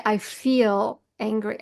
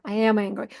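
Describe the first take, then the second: First: Slow, FEEL drawn out; stress on feel. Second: Said in the usual way. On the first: Shown as a demonstration. Teaching how to name an emotion, stress on "feel". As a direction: lean on "feel", stretching it slowly. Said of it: "No, you say".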